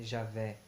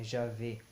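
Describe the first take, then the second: First: "Javé" ending in open é, as in "café"; open final E. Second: "Javé" ending in closed ê, as Ja-vê; closed final E. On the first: Teacher showing the form he rejects, open-E "Javé". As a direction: say "Javé" with a short open é at the end. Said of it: "de um E". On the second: Teacher repeating the corrected name, closed-E "Javé". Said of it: "que é um E". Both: Shown as a demonstration.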